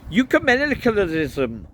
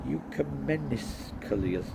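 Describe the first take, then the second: First: High, loud Welsh priest voice; indignant Welsh delivery; Welsh accent. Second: "Ecumenicalism" tried slowly and quietly; tentative, drawn-out "Ecumenicalism"; sounding out. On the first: A narrator's reading. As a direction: belt it out in a Welsh accent, falling at the end. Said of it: "trying to do a Welsh accent". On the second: Shown as a demonstration. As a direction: feel your way through "Ecumenicalism" syllable by syllable. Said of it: "have to look this word up".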